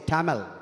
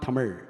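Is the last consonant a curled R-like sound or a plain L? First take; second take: plain L; curled R. First: The last consonant is a plain L sound. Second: The last consonant is a curled R-like sound. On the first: The speaker calls it wrong. "They all say Tamil" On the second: The speaker calls it right. "not Tamil"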